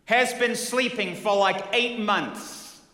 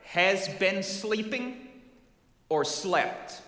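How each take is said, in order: First: Louder, higher "Has been sleeping" flung back; hot-tempered husband insisting "Has"; "eight months" dragged out slowly in outrage; angry husband. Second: "Has" slow and drawn out as a rising question; "Has been sleeping" asked slowly, leaning on "Has"; probing "Has" with a questioning rise; stress on has. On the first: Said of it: "hot to trot". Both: Retold or imitated.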